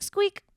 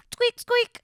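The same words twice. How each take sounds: First: Very high squeaky sound effect; high squeak. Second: Very high squeaky toy sound; high squeak. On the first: Shown as a demonstration. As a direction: give the editor a rubber squeak. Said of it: "if you can add a squeak". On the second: Pretend. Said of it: "instead it would go like".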